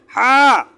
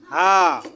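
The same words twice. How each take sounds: First: "হা" forced out hard, loud and higher; som forte. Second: Said in the usual way. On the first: Shown as a demonstration. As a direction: push a hard throaty h in "হা". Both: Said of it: "এটা একটু শক্ত করে".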